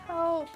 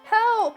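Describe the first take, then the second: First: It is said quietly. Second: It is said loudly.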